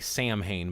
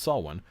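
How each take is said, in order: First: It is said the common anglicized way. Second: It is said the native Irish way. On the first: The speaker calls it wrong. "some people that don't know how to pronounce it will say Samhain" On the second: The speaker calls it right. "it's actually pronounced Samhain"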